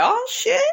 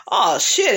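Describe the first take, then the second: First: Much higher, sudden gasp of surprise; surprised. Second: Said in the usual way. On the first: Real, not acted. Recapper seeing round two begin, surprised squeal. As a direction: jump up in pitch as the fight starts.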